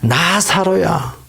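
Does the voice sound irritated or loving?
loving. The name is called out in a loving tone. The speaker calls it right. "아주 사랑스러운 목소리예요"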